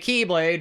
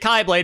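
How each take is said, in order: First: The first syllable is said like the word key. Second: The first syllable is said like the letter chi. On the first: It makes a pun on the word key. The speaker calls it wrong. "They say Keyblade because of a pun" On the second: It follows the real sound of the letter. The speaker calls it right. "that is actually how that letter is pronounced"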